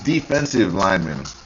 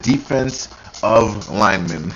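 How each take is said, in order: First: The middle sounds like 'defensive'. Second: The middle sounds like 'defense of'. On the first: The speaker calls it right. "It's defensive linemen" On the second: The speaker calls it wrong. "he said defense of linemen"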